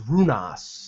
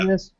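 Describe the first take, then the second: First: The first vowel is an oo sound. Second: The first vowel is an ee sound. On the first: The speaker calls it right. "It was Runas" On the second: The speaker calls it wrong. "He was called"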